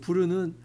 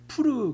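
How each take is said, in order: First: The word begins with a soft B-like sound. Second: The word begins with a breathy P sound. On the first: This is the Korean transliteration. "한글로 음역한 것이고" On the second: This is the original Hebrew pronunciation. "원래 히브리어의 발음은"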